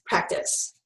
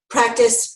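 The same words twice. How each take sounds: First: Practice fading into a whisper. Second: Said in the usual way. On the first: Shown as a demonstration. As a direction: drop the last practice to a breathy whisper. Repeating the key word, fading.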